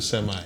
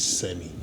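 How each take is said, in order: First: It is said in an American accent. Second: It is said in a British RP accent.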